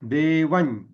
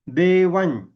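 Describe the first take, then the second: First: It ends in a palatal ny nasal. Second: The same.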